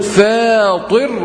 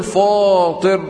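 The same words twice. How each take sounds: First: فاطر with a long thin "fæ"; light fa. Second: فاطر with a long thick "faw"; wrong heavy fa. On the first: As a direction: stretch the fronted vowel in فاطر. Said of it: "أقول". (فاطر بفاء مرققة) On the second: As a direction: show the faulty backed vowel in فاطر. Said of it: "ولا أقول". (فاطر بفاء مفخمة خطأً) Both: Shown as a demonstration.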